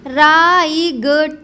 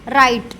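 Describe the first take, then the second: First: A g sound is heard before the t. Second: No g sound is heard before the t. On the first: The speaker calls it wrong. "वैसे बोलना चाहिए राईगट ... लेकिन ऐसा नहीं बोले" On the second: The speaker calls it right. "जी H का उच्चारण जो है गा वो साइलेंट हो जाएगा"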